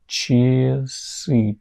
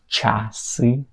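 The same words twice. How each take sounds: First: The first vowel sounds like a short i. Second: The first vowel sounds like a clear a. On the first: The speaker calls it right. "it's I, I, I" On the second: The speaker calls it wrong. "it's not A, it's not часы"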